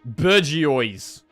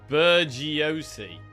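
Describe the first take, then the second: First: The word ends with a 'wah' sound. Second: The word ends with an 'ee' sound. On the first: The speaker calls it right. "There you go. Is that better?" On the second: The speaker calls it wrong. "Worst pronunciation of Bergiosi I've ever heard"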